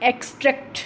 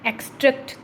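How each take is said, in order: First: The stress is on the first syllable. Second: The stress is on the first syllable.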